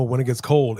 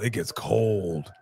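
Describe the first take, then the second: First: Said in the usual way. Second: "cold" stretched long and low; drawn-out COLD. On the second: Real, not acted. Host telling Canadians about winter, "cold" drawn out slowly. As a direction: drop softer and drag out "cold". Repeat stressing how cold.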